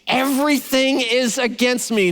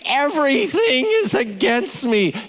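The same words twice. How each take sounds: First: It is said in a plain reading tone. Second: It is said in a whiny tone.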